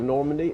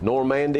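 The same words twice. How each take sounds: First: It uses the usual outside pronunciation. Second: It uses the local Tennessee pronunciation. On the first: This is how everyone else says it. "instead of Normandy" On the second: This is how people in the town say it. "we just refuse to pronounce them like somebody else would"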